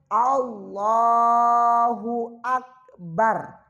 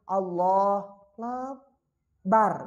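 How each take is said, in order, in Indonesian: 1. Kata-kata itu mengalir bersambung tanpa jeda. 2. Kata-kata itu dipisah dengan jeda. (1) "Dia harus Allahu Akbar. Dari alif sampai ro itu tidak boleh terputus" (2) "Tidak boleh bicara contoh seperti ini"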